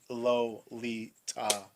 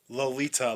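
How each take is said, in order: First: The word is said slowly and drawn out. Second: The word is said at a normal pace.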